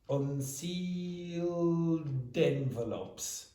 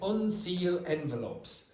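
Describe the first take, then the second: First: The final d of unsealed is clearly pronounced. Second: The final d of unsealed is dropped. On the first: The speaker calls it right. "This is in, in the past" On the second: The speaker calls it wrong. "She said unseal envelopes. But there's that's not the consonant sound that is required"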